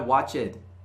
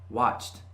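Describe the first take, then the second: First: The word is said with an extra syllable. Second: The word is said as one syllable. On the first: The speaker calls it wrong. "Não é watched" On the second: The speaker calls it right. "Watch seria watched"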